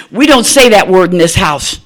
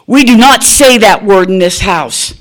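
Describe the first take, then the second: First: Stern rebuke. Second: "do not" split apart and hit hard and loud; stern, every word spaced. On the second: Mother laying down a house rule to her daughter, "do not" hammered. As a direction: lay down the law, stressing "do not". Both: Retold or imitated. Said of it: "she knows I'm mad".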